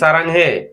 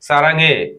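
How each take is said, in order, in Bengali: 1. h থাকে, অক্ষরগুলো আলাদা করে বলা হয়। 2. h বাদ যায়, অক্ষরগুলো একসাথে মিশে যায়।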